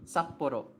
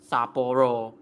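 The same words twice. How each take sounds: First: "Sapporo" with a short "Sap", held stop, then "poro"; "Sapporo" with a tiny silent gap before "poro"; correct pronunciation. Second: "Sapporo" slow and loud, running on as "Saa-poro" without a stop; "Sapporo" with long vowels and no gap; wrong pronunciation. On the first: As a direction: cut "Sapporo" off after the first syllable. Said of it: "That's how you pronounce Sapporo". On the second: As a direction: stretch "Sapporo" open, no cut after "Sa". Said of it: "That's how you pronounce Sapporo. Not Sapporo". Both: Shown as a demonstration.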